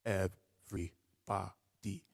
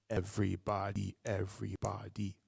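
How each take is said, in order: First: "Everybody" with each syllable on a beat, slow; quarter note rhythm. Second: "Everybody, everybody" twice as fast, two syllables per beat; doubled rhythm. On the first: Rap teacher demos quarter-note rhythm, each syllable on the beat. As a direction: space out "Everybody" one syllable per snap. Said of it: "if I have a tempo like this". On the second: Rap teacher demos doubled rhythm, eighth notes. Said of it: "We double that up". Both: Shown as a demonstration.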